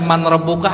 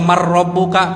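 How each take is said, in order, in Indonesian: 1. Bunyi n tetap dipertahankan sebelum r. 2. Bunyi n melebur sepenuhnya ke dalam r. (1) "Kok ente baca man rabbuka" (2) "harusnya mar rabbuka, kan itu gombila guna"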